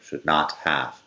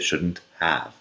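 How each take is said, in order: First: The word 'not' is said in full. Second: The word 'not' is contracted into 'shouldn't'. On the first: "or should not have" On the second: "Se puede decir perfectamente"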